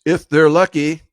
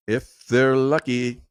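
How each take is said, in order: First: Louder, higher, punchy jab; raised voice, driving the point home; emphatic. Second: Slow, drawn-out, measured words; slowed down for weight; deliberate repeat. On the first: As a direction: hit it hard and high as a pointed afterthought. Emphatic first take, then slower repeat. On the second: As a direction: stretch each word out to let it sink in. Slow repeat of the same remark. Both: Real, not acted.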